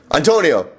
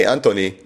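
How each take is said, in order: First: "Antonio!" said ahn-TOH-nee-oh, firm; insisting on "Antonio!" over "Anthony"; correct name. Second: "Anthony" with the English th dropped to a plain t; the manager's "Anthony", not "Antonio"; wrong name. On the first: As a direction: snap "Antonio!" back with all four syllables. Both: Retold or imitated. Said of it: "scratched off the name Scott and wrote Antonio".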